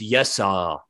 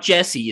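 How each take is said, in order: First: The name begins with a Y sound. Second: The name begins with a J sound. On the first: The speaker calls it right. "It's Yessa" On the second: The speaker calls it wrong. "it's not Jesse"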